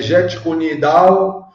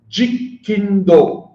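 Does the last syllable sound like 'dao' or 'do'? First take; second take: dao; do. First: The last syllable is said as 'dao'. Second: The last syllable is said as 'do'. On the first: It is a Mandarin form of the term. The speaker calls it wrong. "não é, é Jet Kunidao, porque é chinês. Dao é caminho em mandarim" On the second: It is the Cantonese form of the term. The speaker calls it right. "é um termo cantonês"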